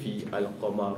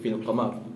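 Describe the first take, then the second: First: A separate vowel sound starts the second word. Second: The two words run together without a separate vowel. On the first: The speaker calls it wrong. "baca sesa" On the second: The speaker calls it right. "kena baca straight fil qamar"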